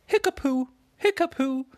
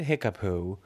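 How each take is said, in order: First: Much higher, louder squeaky magic spell; magic lion casts a spell on the puddle, squeaky and loud; silly magic word. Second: Said in the usual way. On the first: Acted. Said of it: "Liggy Lion said". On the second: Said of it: "just as he said".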